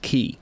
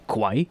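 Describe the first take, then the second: First: The word sounds like 'kee', with no w. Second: The word sounds like 'kway', with a w. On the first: The speaker calls it right. "it's just pronounced key" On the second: The speaker calls it wrong. "I always said Kwai"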